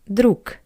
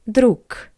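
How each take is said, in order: First: The final consonant is a voiceless k. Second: The final consonant is a voiceless k.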